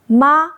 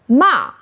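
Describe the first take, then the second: First: The pitch stays high and level. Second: The pitch falls sharply from high. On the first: It means mom. "First tone ma means mom" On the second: It means scold. "Fourth tone ma means scold"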